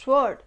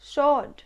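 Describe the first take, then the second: First: The w sound is pronounced after the s. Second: The w sound is silent after the s. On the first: The speaker calls it wrong. "but it's not sword" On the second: The speaker calls it right. "it's sword. এখানে আটটা silent letter হিসেবে থেকে যাবে।"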